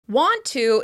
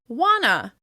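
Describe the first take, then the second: First: Both words are said fully, with a T. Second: The words blend into one, with no T.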